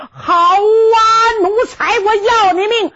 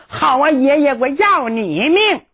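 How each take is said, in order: First: Angry shout. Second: Said in the usual way. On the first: Acted. Grandson shouts at grandfather.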